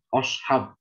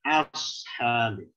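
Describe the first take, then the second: First: The first vowel sounds like a rounded 'o'. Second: The first vowel sounds like an open 'a'. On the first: The speaker calls it wrong. "O itu nggak ada dalam bahasa" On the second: The speaker calls it right. "Yang benar ashab"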